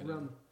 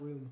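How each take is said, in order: First: The vowel is short, sounding like rum. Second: The vowel is long, sounding like room. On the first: "you can tell he's from Massachusetts because he says rum" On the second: "not room"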